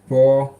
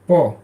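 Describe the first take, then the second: First: The syllable has a high level pitch. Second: The syllable has a sharply falling pitch.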